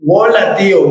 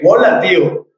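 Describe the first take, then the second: First: "Hola" said as "Wola", starting with a w sound; nephews' "Wola, tío" greeting. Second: Said in the usual way. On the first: Retold or imitated. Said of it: "hola" con W". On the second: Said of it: "con W".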